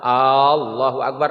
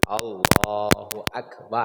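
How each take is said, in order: First: The first vowel of Allahu is drawn out long. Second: The first vowel of Allahu is kept short. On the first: It asks whether God is great. The speaker calls it wrong. "Kalau dipanjangkan alifnya itu enggak sah" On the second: It states that God is great. The speaker calls it right. "Jangan dipanjangkan alifnya"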